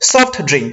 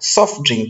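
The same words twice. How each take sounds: First: The t in 'soft' is clearly pronounced. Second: The t in 'soft' is dropped. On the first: The speaker calls it wrong. "এভাবে হয় না" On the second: The speaker calls it right. "এখানকার টিটা চলে যাচ্ছে"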